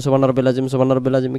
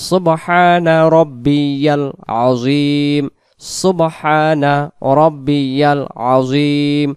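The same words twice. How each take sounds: First: সুবহান রব্বিল আজিম rushed and swallowed, syllables dropped; hasty mumbled recitation. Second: সুবহানা রব্বিয়াল আজিম drawn out, every syllable full; slow careful recitation. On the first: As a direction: rattle it off carelessly, the wrong way. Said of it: "উচ্চারণ যেন এমন হয়". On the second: Teacher giving the correct form, slow and full. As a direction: recite it beautifully and slowly. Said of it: "সুন্দর করে বলবো". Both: Shown as a demonstration.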